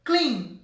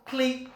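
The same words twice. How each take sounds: First: "clean" as one single unbroken syllable. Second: "clean" broken into two separate syllables; two syllables, wrongly. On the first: Teacher showing students that English "clean" is said as one syllable. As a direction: say "clean" in one firm beat. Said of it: "É uma sílaba só". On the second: Teacher showing students how not to say "clean", split in two syllables. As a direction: say "clean" letter by letter as two beats, cle-an. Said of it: "a sílaba é pelo som. Eu não falo". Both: Shown as a demonstration.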